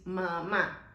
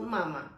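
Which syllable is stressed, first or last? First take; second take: last; first. First: The stress is on the last syllable. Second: The stress is on the first syllable. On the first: The speaker calls it right. "you need your pronunciation need to be stronger on that vowel" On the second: The speaker calls it wrong. "It's not mama"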